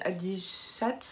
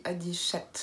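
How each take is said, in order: First: "adichat" with the final ts sounded; Landais pronunciation. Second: "adichat" ending on a plain t, no s; Béarn pronunciation. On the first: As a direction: say "adichat" ending in an audible -ts. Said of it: "les Landais disent adichat". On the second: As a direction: say "adichat" with a simple final t. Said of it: "et nous on dit adichat". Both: Shown as a demonstration.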